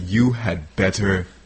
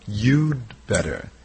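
First: The word 'had' is said in full. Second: The word 'had' is reduced to a 'd' sound. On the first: "it actually sounds stronger when you say that" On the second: "we contract it"

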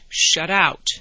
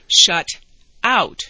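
First: The two words run together as one. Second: The two words are said separately.

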